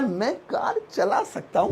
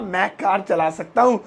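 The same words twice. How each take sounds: First: It sounds hesitant and doubtful. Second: It sounds confident and certain.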